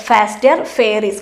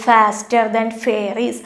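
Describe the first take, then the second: First: Said in the usual way. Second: F sounds of faster and fairies pushed out; alliteration stressed. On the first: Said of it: "കണ്ടോ repeat ചെയ്തിരിക്കുന്നത്". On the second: Shown as a demonstration. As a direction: lean on the f at the start of faster and fairies. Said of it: "ഇവിടെ തന്നെ ശ്രദ്ധിച്ചേ". (faster, fairies എന്നിവയിലെ ഫ് ശബ്ദം ഊന്നി)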